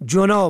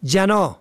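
First: جنا as "junā"; rounded "u" after the j in جنا; damma sound. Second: جنا as "janā"; fatha on first letter. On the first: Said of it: "به ضم دوم". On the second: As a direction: open "a" after the j in جنا. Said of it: "به فتح اول". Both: Shown as a demonstration.

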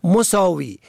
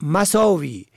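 First: مساوی as "mosāwi"; rounded "o" after the m in مساوی; damma on first letter. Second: مساوی as "masāwi"; fatha on first letter. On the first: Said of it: "به ضم اول". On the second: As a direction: open "a" after the m in مساوی. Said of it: "به فتح اول". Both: Shown as a demonstration.

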